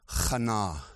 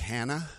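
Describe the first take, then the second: First: The name is pronounced the Hebrew way. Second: The name is pronounced the English way. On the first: This is the original pronunciation of the name. The speaker calls it wrong. "the actual Hebrew pronunciation of Hannah is Hannah" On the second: This is the familiar pronunciation of the name. The speaker calls it right. "I'm going to stick with Hannah"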